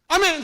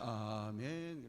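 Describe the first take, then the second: First: The word is said quickly and loudly. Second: The word is drawn out slowly and softly. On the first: It comes out loud and confident. The speaker calls it right. "아멘 하면 빨리 하게 돼요" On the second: It cannot come out loud. The speaker calls it wrong. "천천히 하면 아멘 그래"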